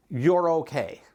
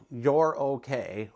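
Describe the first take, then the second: First: Said in the usual way. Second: Slow calming you're okay; slow reassurance. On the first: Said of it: "you need to know". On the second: Shown as a demonstration. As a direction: reassure yourself gently, taking your time. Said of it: "you need to know, you're okay".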